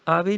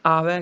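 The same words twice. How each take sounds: First: ਆਵੇ ending in close 'e'; wrong close vowel. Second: ਆਵੈ ending in open 'ai'; corrected open vowel. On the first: Teacher warning against ਆਵੇ, said with close 'e'. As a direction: close the end of ਆਵੇ to 'vay'. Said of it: "ਆਵੇ ਨਹੀਂ ਕਹਿਣਾ". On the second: Teacher repeating the correction, ਆਵੈ with open 'ai'. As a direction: widen the last vowel of ਆਵੈ. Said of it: "ਆਵੈ ਕਹਿਣਾ ਹੈ". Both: Shown as a demonstration.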